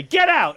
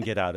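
First: High, loud re-enacted yell; full-voiced comic shout. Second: Said in the usual way. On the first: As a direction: yell it to throw someone out. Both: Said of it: "I was yelling".

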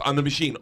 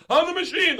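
First: Said in the usual way. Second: Very high, belted boast; high, triumphant catchphrase cry; party catchphrase yell. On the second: Acted. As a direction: crow it at a drunken party. Repeating the catchphrase all night, acted.

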